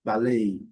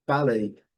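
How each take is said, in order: First: Ballet as bal-AY, loud second syllable; American second-syllable stress. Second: Ballet as BAL-ay, loud first syllable; British first-syllable stress. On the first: Teacher models American English, end-stressed demo. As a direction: hit the last syllable of ballet. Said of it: "a sílaba forte é a segunda". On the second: Teacher models British English, front-stressed demo. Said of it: "a sílaba forte é a primeira". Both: Shown as a demonstration.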